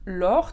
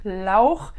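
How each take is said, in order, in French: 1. Le prénom se prononce à la française. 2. Le prénom se prononce avec un son allemand « au ». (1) "très sympa en français" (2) "puisqu'ils vont prononcer le A U A O"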